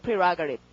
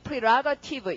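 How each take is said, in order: First: The final syllable is slurred, sounding almost like 'rip'. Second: The final syllable is pronounced fully and clearly. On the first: The speaker calls it right. "tiv가 이렇게 뭉개져서 한국말에 거의 립처럼 들립니다. prerogative 이렇게 해요" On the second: The speaker calls it wrong. "tiv 스펠링도 거의 prerogative 이렇게 발음 잘 안 합니다"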